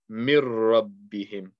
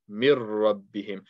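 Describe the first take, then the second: First: The n sound merges into a doubled r. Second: The same.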